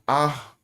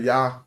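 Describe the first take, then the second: First: The word starts with a plain vowel, no Y. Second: The word starts with a Y sound. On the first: "I don't pronounce that with a Y" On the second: "Some say Yah"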